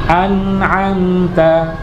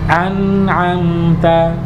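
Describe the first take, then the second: First: The sounds bounce in separate jerky bursts. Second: The sounds flow smoothly into one another. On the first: The speaker calls it wrong. "ini apalagi dipantul-pantulin begini nggak tepat ya" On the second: The speaker calls it right. "Tapi harus ada alirannya"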